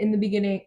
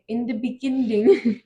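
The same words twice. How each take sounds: First: Said in the usual way. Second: "beginning" said oddly with an extra d, "beginding"; playful mispronunciation. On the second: Pretend. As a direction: play with the sounds of "beginning", a little higher. Repeats the phrase oddly, then laughs.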